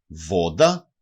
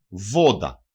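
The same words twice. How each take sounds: First: Βόντα again, slowly, as voda; teacher repeats βόντα. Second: Βόντα said as voda with a d sound; teacher demo of βόντα; example word. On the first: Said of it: "Βόντα σημαίνει νερό". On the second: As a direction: say βόντα clearly, v then d. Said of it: "Παράδειγμα". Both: Shown as a demonstration.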